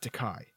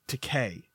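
First: The last syllable does not rhyme with 'gay'. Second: The last syllable rhymes with 'gay'. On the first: The speaker calls it wrong. "not Takai" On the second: The speaker calls it right. "it's Takei"

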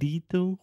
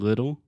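First: The first vowel is not a short i. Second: The first vowel is a short i. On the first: The speaker calls it wrong. "we're not saying little" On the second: The speaker calls it right. "So we have the I sound. We're saying little"

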